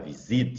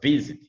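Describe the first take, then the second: First: The stress is on the second syllable. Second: The stress is on the first syllable. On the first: The speaker calls it wrong. "Você não fala visit" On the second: The speaker calls it right. "você fala visit"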